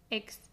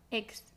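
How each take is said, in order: First: The x is pronounced like g plus s. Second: The x is pronounced like g plus s.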